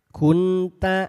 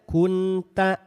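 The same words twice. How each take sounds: No difference in how they are said.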